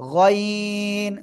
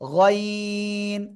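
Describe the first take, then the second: First: The vowel is heavy and thick. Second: The same.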